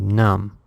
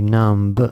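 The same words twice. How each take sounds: First: The word ends with an M sound. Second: A B sound is heard at the end. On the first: The speaker calls it right. "we just say numb" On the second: The speaker calls it wrong. "So the B is silent. We don't say numb"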